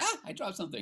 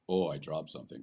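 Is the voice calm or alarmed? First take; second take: alarmed; calm. First: It is said in alarm with a higher voice. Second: It is said calmly in a low voice.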